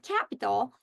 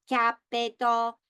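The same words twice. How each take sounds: First: Said in the usual way. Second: "capital" in three separate, even-pitched syllables; robot syllable breaks. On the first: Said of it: "I can break words into syllables". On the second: Shown as a demonstration. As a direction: say "capital" robotically as cap-i-tal, slowly. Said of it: "If I speak like a robot".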